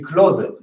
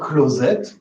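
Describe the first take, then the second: First: The stress is on the first syllable. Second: The stress is on the last syllable. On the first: This is how it would sound if it came from English. "It should be closet from English" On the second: This is the borrowed form meaning bathroom. "Why is it stressed on the on the on the et?"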